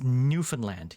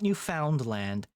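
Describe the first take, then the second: First: The F runs straight into the N. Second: The middle syllable is said fully. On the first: The speaker calls it right. "You just sort of fall off the F onto the N" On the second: The speaker calls it wrong. "It's not Newfoundland"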